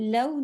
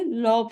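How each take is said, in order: First: The syllable is pronounced light and soft. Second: The syllable is pronounced heavy and full. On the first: The speaker calls it right. "वाव सुकून लव" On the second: The speaker calls it wrong. "ना कह के लौ पढ़ते हैं"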